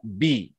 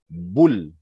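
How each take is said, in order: First: The b is followed by an 'i' vowel. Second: The b is followed by a 'u' vowel. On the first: The speaker calls it right. "harus dibaca bi" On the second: The speaker calls it wrong. "tidak boleh dibaca bul"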